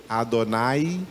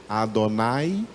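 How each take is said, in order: Both takes have the same delivery.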